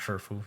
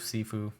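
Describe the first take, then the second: First: The word is said in a Chinese pronunciation. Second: The word is said in an English-style pronunciation. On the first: "In Chinese, it's pronounced Shifu" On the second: "however you want to pronounce it"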